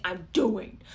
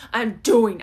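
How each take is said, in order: First: Said in the usual way. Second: Determined. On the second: Pretend. Imagined determined inner voice.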